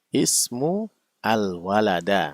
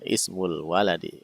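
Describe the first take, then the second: First: The final word ends with an a vowel. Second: The final word ends with an i vowel. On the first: The speaker calls it wrong. "Kesalahannya di mana? Kata kedua" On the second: The speaker calls it right. "Itu berharokat kasroh"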